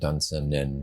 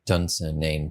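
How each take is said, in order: First: The final syllable has a short, reduced vowel. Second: The final syllable has a long 'ane' vowel.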